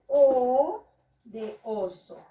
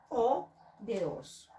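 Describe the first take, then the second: First: Slow, louder "O de oso" with a long O; stretched vowel. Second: Said in the usual way. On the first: Shown as a demonstration. Teacher showing children the first vowel, slow and loud. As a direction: hold the O in "O de oso" for the class. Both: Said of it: "inicia con la vocal".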